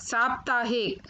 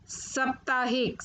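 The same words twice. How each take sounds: First: Said in the usual way. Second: साप्ताहिक said "saptaahik", short first vowel; mispronounced साप्ताहिक. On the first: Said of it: "फिर उनका शुद्ध उच्चारण". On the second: Shown as a demonstration. Teacher showing children the error, साप्ताहिक with short first vowel. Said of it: "अशुद्ध शब्द मैंने रखे हैं".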